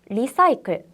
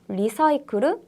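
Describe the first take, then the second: First: It is said the English way, ending in -cle. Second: It is said with Japanese syllables, ending in -kuru.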